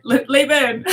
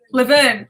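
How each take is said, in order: First: "Laverne" opening on a long "lay"; stumble, then say "Laverne" as LAY-vern; second pronunciation attempt. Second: "Laverne" with a short, reduced first vowel; trying a pronunciation. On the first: Retrying a viewer's name live, altered pronunciation. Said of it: "It's close". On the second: Attempting a viewer's name live, tentative pronunciation. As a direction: sound out "Laverne" as luh-VERN. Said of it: "Type out how to say it". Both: Shown as a demonstration.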